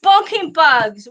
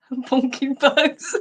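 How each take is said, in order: First: Said in the usual way. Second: Slow, giggling through the words; real laughter breaking up the nickname; chuckling it out slowly; laughing. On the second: Real, not acted. Repeats nickname while laughing.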